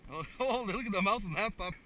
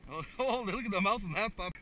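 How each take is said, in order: Both takes have the same delivery.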